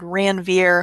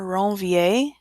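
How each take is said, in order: First: The name is said with an English pronunciation. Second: The name is said with a French pronunciation. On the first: "You don't have to say it with the French sound" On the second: "this is a French name"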